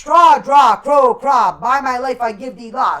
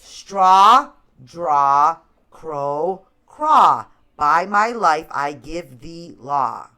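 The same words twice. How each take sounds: First: It is said fast. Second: It is said slowly.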